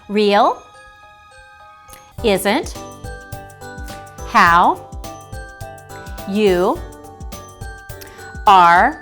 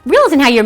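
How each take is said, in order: First: The words are read slowly with gaps. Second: The words are read very quickly. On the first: "I read that in a too slow speed" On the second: "I read that in a too fast speed"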